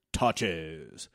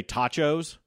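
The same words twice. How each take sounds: First: Low, drawn-out "tachos" like Snake; Snake from The Simpsons. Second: Said in the usual way. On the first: Shown as a demonstration. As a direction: say "tachos" deep and lazy like Snake. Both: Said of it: "you say it like Snake from The Simpsons".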